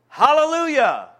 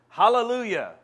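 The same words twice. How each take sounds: First: It is said powerfully, with more force. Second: It is said weakly, with little force.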